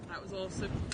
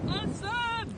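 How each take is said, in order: First: It sounds flat and insincere. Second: It sounds genuinely enthusiastic.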